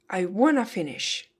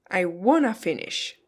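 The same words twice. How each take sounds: Both takes have the same delivery.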